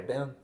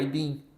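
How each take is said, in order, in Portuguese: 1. É dito do jeito americano, sons ligados juntos. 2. É dito do jeito brasileiro, sons separados. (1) "americano fala I been" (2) "a gente aqui no Brasil, a gente fala I been"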